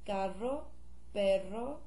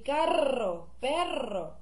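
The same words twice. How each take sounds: First: The R is rolled lightly and briefly. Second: The R is rolled very strongly and long. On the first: The speaker calls it right. "You can say carro, perro, ahora. Not that strong" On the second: The speaker calls it wrong. "you don't have to say carro, perro. It's not that strong"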